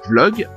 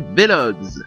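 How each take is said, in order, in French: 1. Le mot se prononce en une seule syllabe. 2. Le V se prononce à part, séparément du reste. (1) "dire vlog en une seule syllabe" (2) "il prononçait le V séparément du reste du mot"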